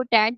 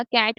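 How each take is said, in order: First: टैट with T replacing the K of cat; child's fronting error. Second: Said in the usual way. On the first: Retold or imitated. Lecturer demonstrates a child's fronting, टैट with initial T for K. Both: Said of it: "बच्चा कैट को टैट बोल रहा है".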